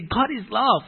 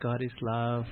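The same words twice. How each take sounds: First: It is said with strong energy and force. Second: It is said in a flat, low-energy monotone. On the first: The speaker calls it right. "We must say" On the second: The speaker calls it wrong. "the translator go oh yeah God is love right Then it doesn't fit"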